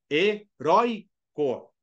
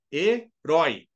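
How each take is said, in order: First: HERÓICO slowly in syllables, strong ROI, light co; stress on penultimate. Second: HERÓI in two beats, louder final RÓI; stress on last syllable. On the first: Teacher proving the stress, "Heróico" split with strong middle syllable. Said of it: "A sílaba forte é a penúltima". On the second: Teacher proving the stress, "Herói" louder on the final syllable. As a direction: break up "Herói" as he-RÓI, punching the end. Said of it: "Ele tem tonicidade na última sílaba". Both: Shown as a demonstration.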